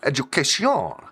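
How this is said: It is said with a French accent.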